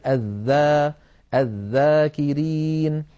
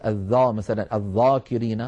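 First: "الذاكرين" slow, with a thin front vowel; drawn-out recitation, "الذا" kept light; correct light dhal. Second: "الذا" thickened, with a dark emphatic vowel; wrongly heavy dhal. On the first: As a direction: model "الذاكرين" slowly, dhal without heaviness. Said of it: "بل نقول". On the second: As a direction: show the mistake, "الذاكرين" with a heavy dhal. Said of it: "ولا نقول". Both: Shown as a demonstration.

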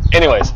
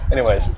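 First: Louder, higher "anyways"; emphatic resumption. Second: Said in the usual way. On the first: Real, not acted. Co-host cutting off the banter to get back on topic, emphatic. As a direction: push "anyways" out to retake the floor.

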